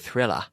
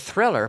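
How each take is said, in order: First: A British pronunciation with the final r like 'a'. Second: A standard pronunciation with the final r sounded.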